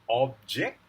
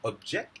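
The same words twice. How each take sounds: First: The stress is on the first syllable. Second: The stress is on the second syllable. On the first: It is used as a noun. "Object is the noun" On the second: It is used as a verb. "object is the verb"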